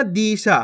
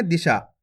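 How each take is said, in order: First: दिशा with the first vowel stretched to a long ई; wrong long vowel. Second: दिशा with a short, quick इ, lower pitch; short vowel, quick. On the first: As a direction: drag out the दि in दिशा like "dee-sha". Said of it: "दिशा खींच के पढ़ोगे तो बड़ी ई". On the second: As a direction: say the दि in दिशा briefly, no stretching. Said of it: "जल्दी से उच्चारण कर देंगे". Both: Shown as a demonstration.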